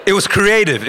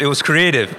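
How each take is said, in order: First: "creative" lifted higher and louder, stressed hard; emphatic. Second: Said in the usual way. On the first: Real, not acted. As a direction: punch "creative" with a high excited lift. Repeats phrase, first take emphatic.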